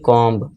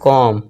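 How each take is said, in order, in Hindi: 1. अंतिम b की ध्वनि उच्चारित होती है। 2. अंतिम b की ध्वनि मूक है। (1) "ना कि" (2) "इसे हम पढ़ेंगे"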